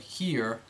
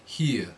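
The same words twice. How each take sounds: First: The vowel is bright. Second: The vowel is darker. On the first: "The normally bright E"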